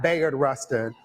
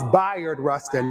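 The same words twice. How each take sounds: First: The first syllable sounds like 'bay'. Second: The first syllable sounds like 'bye'. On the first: The speaker calls it wrong. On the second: The speaker calls it right. "just think bisexual"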